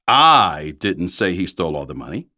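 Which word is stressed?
I. The stress is on the word I.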